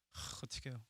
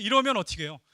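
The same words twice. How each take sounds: First: Sighed out, much softer and lower; helpless sigh. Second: Said in the usual way. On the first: Real, not acted. Preacher imagining Peter's shame, sighing softly. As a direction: let it fall away in a helpless sigh.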